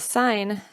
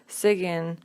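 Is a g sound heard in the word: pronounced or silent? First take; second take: silent; pronounced. First: The g is silent, one syllable. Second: The g is pronounced, adding a syllable. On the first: The speaker calls it right. "pronouncing the silent words and letters" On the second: The speaker calls it wrong. "they might actually pronounce it as sigin"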